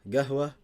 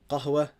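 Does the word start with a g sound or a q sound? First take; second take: g sound; q sound. First: The word begins with a hard g sound. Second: The word begins with a deep q sound.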